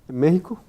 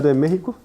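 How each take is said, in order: No difference in how they are said.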